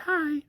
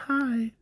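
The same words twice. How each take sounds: First: Put-on extremely high, soft girly squeak; Zilly's girly voice. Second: Put-on very high, soft little girl voice; Zilly's girly voice. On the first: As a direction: pitch it way up like a tiny girl. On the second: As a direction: squeak it out like a shy little girl. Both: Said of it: "in the high-pitched voice".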